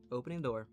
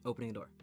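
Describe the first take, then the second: No difference in how they are said.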